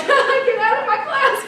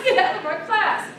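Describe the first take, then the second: First: High, loud, laughing mock yell; teacher yelling. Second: Teacher repeating. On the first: Teacher throwing the class clown out, high laughing mock yell. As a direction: throw the kid out with a laughing shout. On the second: Retold or imitated. Teacher repeating her order to the class clown, milder mock yell. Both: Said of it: "The teacher was like".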